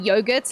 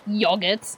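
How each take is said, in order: First: It is said in a plain, ordinary way. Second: It is said in a British way. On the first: The speaker calls it right. "instead of saying yogurt like a normal person" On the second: The speaker calls it wrong. "my dad's from the U K ... he's like yogurt"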